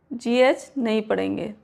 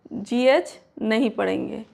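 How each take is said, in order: Both takes have the same delivery.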